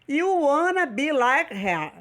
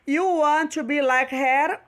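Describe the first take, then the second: First: Want and to are blended into wanna. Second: Want and to are said as separate words.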